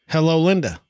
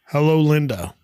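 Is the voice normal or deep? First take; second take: normal; deep. First: It is said in a normal voice. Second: It is said in a deep, lowered voice.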